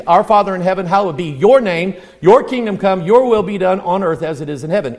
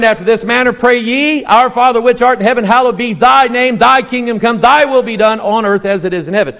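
First: Said in the usual way. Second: Brisk, lilting scripture recital; King James reading. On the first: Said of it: "this is the New King James". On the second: Shown as a demonstration. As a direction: recite the old King James wording with flow. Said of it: "So now say it the other way".

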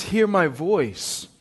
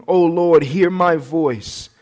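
First: Slow and softer, stress on Hear; hushed slow plea. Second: Slow, earnest prayer, each word drawn out; slow quoted prayer. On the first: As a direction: lean into Hear, then let it fall quietly. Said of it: "But instead he says". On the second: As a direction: plead it slowly to the Lord. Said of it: "he says". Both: Acted.

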